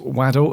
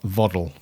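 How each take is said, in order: First: The name begins with a W sound. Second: The name begins with a V sound. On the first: The speaker calls it right. "it's Waddle, as in the football player" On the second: The speaker calls it wrong. "not Voddle"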